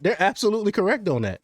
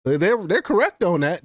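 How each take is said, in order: First: Quick, higher, with stress on "correct"; emphatic agreement. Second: Said in the usual way. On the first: Real, not acted. Commentator insisting to viewers that they are right, stress on "correct". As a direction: hammer home "correct" fast and high.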